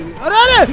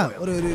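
First: Loud, high alarmed cry; alarmed shout. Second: Said in the usual way. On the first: Real, not acted. Streamer yelling at the crash on screen, loud and high. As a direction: yell it as the car slams into something.

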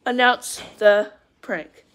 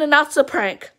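First: Spaced out, word by word; slow right down and separate each word; drawn-out, deliberate announcement; slow deliberate repeat. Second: Said in the usual way. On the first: Real, not acted.

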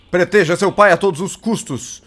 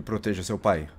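First: Louder, urgent command; raised voice. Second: Low, softer urging; quiet. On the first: Father ordering his bird to protect him, raised voice. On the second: Father quietly asking his bird to protect him, low. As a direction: say it low and soft. Same words, then louder. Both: Real, not acted.

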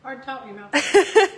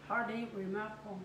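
First: Correcting herself through laughter; laughing. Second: Talking through a mouthful of gravy; mouth full. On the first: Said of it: "It's hard to talk with your mouth full". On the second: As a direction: chew and talk at once, fast and mumbled. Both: Real, not acted.

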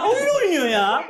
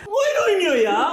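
First: Gülerek, nefes nefese; acıyla gülerek söyle; laughing. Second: Laughing. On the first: (gülerek) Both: Real, not acted. Laughing in pain during sit-ups.

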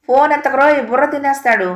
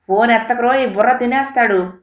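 First: Much higher, louder shouted warning; loud ringtone yell. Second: Scary ringtone shout. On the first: Ringtone blaring again as the father reaches, loud yell. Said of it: "అంటూ వినిపించింది". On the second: Ringtone yelling at the father to ignore the phone, menacing shout. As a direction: bellow it like a frightening ringtone. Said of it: "భయంకరంగా ఓ గొంతు వినిపించింది". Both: A narrator's reading.

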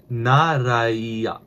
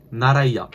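First: "naraiya" stretched out slowly with a falling end; drawn-out demonstration. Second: Said in the usual way. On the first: Shown as a demonstration. Learner sounding out the word for "okay then", "naraiya" drawn out. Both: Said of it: "Okay then is".

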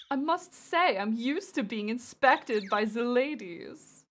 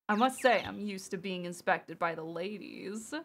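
First: Slow, drawn-out, lightly flamboyant German flirt. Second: Put-on hushed, suave German accent; lightly put-on flamboyant German accent. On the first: Acted. Streamer voicing a game character used to the ladies, flamboyant. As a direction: savour each word with flamboyant flair. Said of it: "a flamboyant voice". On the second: Streamer trying out the character's line, soft German accent. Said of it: "I'm not gonna try to do a German accent".

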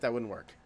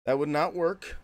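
First: Said in the usual way. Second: "not" pulled out and hit firmly; stress on NOT. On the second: Real, not acted. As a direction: separate the words and punch "not". Repeats it uncontracted for emphasis.

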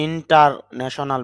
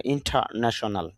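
First: ইন্টারন্যাশনাল with a clear r after ইন্টা; wrong way: ইন্টারন্যাশনাল sounding the r. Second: ইন্টারন্যাশনাল as ইন্টানেশনাল, no r; right way: ইন্টারন্যাশনাল with the r dropped; without the r. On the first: Teacher showing students the wrong ইন্টারন্যাশনাল with the r sounded. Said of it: "এই জন্য এরকম উচ্চারণ হবে না". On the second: Teacher giving students the correct ইন্টারন্যাশনাল with no r. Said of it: "IPS সাউন্ডের মধ্যে র সাউন্ডটা আসেনি". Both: Shown as a demonstration.

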